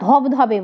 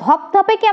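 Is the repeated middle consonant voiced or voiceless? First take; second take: voiced; voiceless. First: The repeated middle consonant is a voiced b. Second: The repeated middle consonant is a voiceless p. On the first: This is the everyday relaxed pronunciation. "ধবধবে বলছি" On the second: This is the original form of the word. "কোন কোন অঘোষ বর্ণ উচ্চারণের শিথিলতায় ঘোষ বর্ণে পরিণত হয়"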